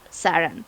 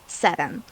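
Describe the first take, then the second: First: The name is said with an English accent. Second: The name is said with a Spanish accent. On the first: "for English speakers, I think Saran is a little bit more easier" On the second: "my Spanish friends will pronounce it like Satan, like with with that accent"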